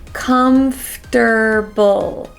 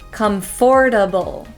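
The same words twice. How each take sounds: First: The second syllable is a reduced 'fur'. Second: The second syllable is a strong 'for'. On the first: The speaker calls it right. "the way I say it is I say comfter" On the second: The speaker calls it wrong. "we don't want to say comfortable"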